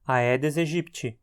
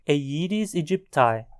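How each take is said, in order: First: It is pronounced with Portuguese sounds. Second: It is pronounced with English sounds. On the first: It suits talking in Portuguese. "a pronúncia mais adequada no contexto de português" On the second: It suits talking in English. "no contexto do inglês, a pronúncia mais adequada"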